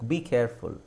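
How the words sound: The pitch falls at the end. The speaker calls it right. "Tone ಕೆಳಗಿಳಬೇಕು"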